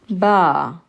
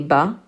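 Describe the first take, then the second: First: The vowel is long. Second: The vowel is short. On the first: "a ba alif" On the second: "a ba with a fatha"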